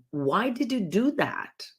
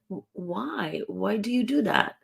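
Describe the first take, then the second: First: Pointed, higher demanding question; challenging why. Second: Lightly curious, rising why. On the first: Coach showing how a why question challenges the listener, accusing. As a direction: demand an explanation with an accusing edge. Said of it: "I'm challenging you". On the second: Coach showing the softer curious way to ask why, curious. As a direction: ask as if you really want to know. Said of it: "using curiosity voice". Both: Shown as a demonstration.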